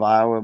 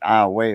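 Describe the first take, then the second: First: It is pronounced the standard way, as for the state. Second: It is pronounced the local way, unlike the state. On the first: This is the name of the state. "the state of Iowa" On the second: This is how the town's locals say it. "they pronounce it Iowa over there"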